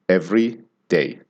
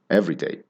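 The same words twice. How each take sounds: First: Both parts are stressed, with a slight pause between. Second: Only the first part is stressed, said as one word. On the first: It says how often something happens. "you pronounce both syllables of the words. ... there's a little bit of a pause in between" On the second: It describes something common or ordinary. "you stress only the first syllable and the second one sort of dives in"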